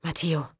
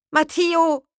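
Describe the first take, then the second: First: Said in the usual way. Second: High, loud cry of Matteo!; desperate call. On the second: Acted. Aroa calling for Matteo after the crash, desperate shout. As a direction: shout Matteo! out across the slope. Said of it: "nach den anderen zu rufen".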